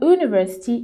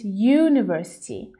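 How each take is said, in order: First: The word begins directly with a vowel sound. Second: The word begins with a consonant y sound. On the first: The speaker calls it wrong. "It's not university" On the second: The speaker calls it right. "because it has a sound that isn't like a vowel"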